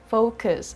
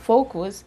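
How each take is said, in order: First: The second syllable has an uh vowel. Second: The second syllable has an oo vowel. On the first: The speaker calls it right. "it's focus. ... it's uh" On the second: The speaker calls it wrong. "It's not focus, ... It's not oo"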